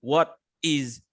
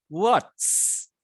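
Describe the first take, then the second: First: "What is" as two separate full words; uncontracted WHAT IS. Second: "What's" as one syllable with a long hissed final s; contracted WHAT'S. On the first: Teacher showing the long form, "What is" in two words. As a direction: keep "is" whole and apart in "What is". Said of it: "make as a contraction, be-, become short". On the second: Teacher showing the contraction, "What's" with lengthened s. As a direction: run "What's" into a drawn-out sss. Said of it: "so it will sound like". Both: Shown as a demonstration.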